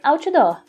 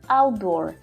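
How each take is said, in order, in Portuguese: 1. Se diz com pronúncia de português brasileiro. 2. Se diz com pronúncia inglesa. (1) "Se você estiver falando em português" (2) "quando você for falar inglês"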